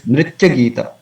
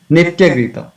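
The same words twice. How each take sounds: First: "Nritya Gita" with the r sounded; careful nri- in "Nritya Gita"; corrected r sound. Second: "Nitya Gita" with no r after n; mispronounced "Nitya Gita", plain ni-; common mistake. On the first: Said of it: "It's not Nitya". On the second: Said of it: "some devotees say". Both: Shown as a demonstration.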